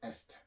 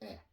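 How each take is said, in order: First: The word ends with audible S and T sounds. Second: The word is a bare vowel, no final consonants. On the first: The speaker calls it wrong. "You don't say est" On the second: The speaker calls it right. "but you just say eh"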